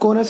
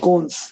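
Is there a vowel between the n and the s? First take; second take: yes; no. First: A vowel is heard between the n and s. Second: The n and s join with no vowel. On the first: The speaker calls it wrong. "Sorry कोनस नहीं" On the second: The speaker calls it right. "को आदना स"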